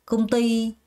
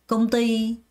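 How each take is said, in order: First: The stress falls on the second syllable. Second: The stress falls on the second syllable.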